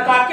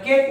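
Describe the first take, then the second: First: The vowel sounds like 'ah', two syllables. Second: The vowel sounds like 'ay', one syllable. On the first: The speaker calls it wrong. "याला काके म्हटल्याशिवाय राहणार नाही" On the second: The speaker calls it right. "मग त्याला केक म्हणतात"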